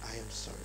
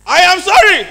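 First: Low, hushed 'I am sorry'; soft, sincere tone. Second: Shouted high 'I am sorry'; loud, insincere tone. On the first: Speaker showing an audience two meanings of one sentence, quiet and low. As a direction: drop low and apologize very softly. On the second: Speaker showing an audience two meanings of one sentence, shouted. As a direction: yell the apology at full volume, pitched up. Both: Shown as a demonstration. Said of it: "than how you say it".

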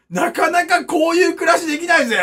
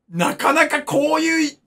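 First: Louder, higher proud boast; proud shout. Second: Said in the usual way. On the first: Acted. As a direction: shout it out as a brag. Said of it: "repeated louder". (自慢げに叫ぶ) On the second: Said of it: "repeated with a build".

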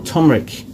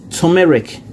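First: "turmeric" squeezed into two syllables, TUM-rik; local pronunciation. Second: "turmeric" in three syllables, too-MEH-rik; Ghanaian pronunciation. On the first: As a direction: say "turmeric" with the middle vowel dropped. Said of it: "Here we call it turmeric". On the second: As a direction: say "turmeric" the Ghanaian way, middle vowel kept. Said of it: "Ghanaian people call it turmeric". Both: Shown as a demonstration.

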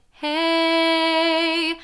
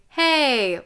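First: Held, higher sung HEY; sung chest voice. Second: Firm spoken chest voice; speaking voice. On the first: Coach showing students chest voice, sung on one note. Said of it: "or you sing". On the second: Coach showing students chest voice, spoken in speaking voice. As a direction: say it in full chest voice, falling at the end. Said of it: "Chest voice or speaking voice". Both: Shown as a demonstration.

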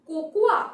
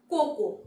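First: "cocoa" as ko-ku-WA, louder at the end; a sounded. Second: "cocoa" as KO-ko, falling; silent a. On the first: Teacher asking which is right, "cocoa" as ko-ku-WA. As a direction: say "cocoa" with a final wa, rising. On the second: Teacher offering the second option, "cocoa" as KO-ko. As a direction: say "cocoa" in two syllables, no a. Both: Shown as a demonstration. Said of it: "এর উচ্চারণ হবে না".

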